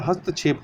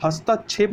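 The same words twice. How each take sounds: First: हस्तक्षेप with short middle vowel; correct form. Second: हस्तक्षेप with long aa after t; wrong form. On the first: Teacher corrects for learners, हस्तक्षेप without long aa. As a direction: say हस्तक्षेप as "hast-chhep". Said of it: "हस्तक्षेप होता है". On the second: Teacher rejects the error, हस्तक्षेप with long middle aa. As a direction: say हस्तक्षेप as "hastaa-chhep". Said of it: "हस्तक्षेप नहीं होता". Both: Shown as a demonstration.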